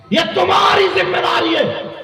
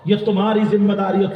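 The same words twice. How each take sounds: First: High shouted admonition; shouted exhortation, pitched way up; preacher's shout. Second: Said in the usual way. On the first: Real, not acted. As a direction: hammer it out in a soaring preaching cry. Shouted repeat to the crowd.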